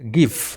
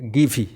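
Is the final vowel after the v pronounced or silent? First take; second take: silent; pronounced. First: The word ends on the v sound. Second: The word ends with an extra vowel sound. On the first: The speaker calls it right. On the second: The speaker calls it wrong.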